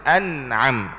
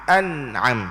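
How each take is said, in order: The two takes are said the same way.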